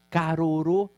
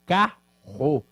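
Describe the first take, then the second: First: "carorô" said syllable by syllable, each R tapped; deliberately wrong "carorô", every letter sounded; wrong spelled-out reading. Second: "carro" with one strong guttural R; correct pronunciation. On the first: Teacher showing how carro is not said, syllable by syllable. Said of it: "Eu não falo". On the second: Teacher showing students the real sound of carro, clearly. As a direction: say "carro" the natural way, double R as one harsh sound. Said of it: "eu falo carro". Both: Shown as a demonstration.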